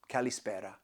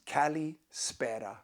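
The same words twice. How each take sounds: First: Said in the usual way. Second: Kalispera said slowly, syllable by syllable; slow teaching pronunciation of kalispera. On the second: Shown as a demonstration. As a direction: model kalispera slowly, ka-li-SPE-ra. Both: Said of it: "then you say kalispera".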